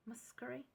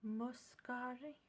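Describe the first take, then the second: First: Breathy whispered guess at the name; whispered try. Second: Slow, careful spoken reading of the name; slow aloud. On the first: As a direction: whisper the word, unsure. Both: Real, not acted. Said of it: "I can't understand what that says".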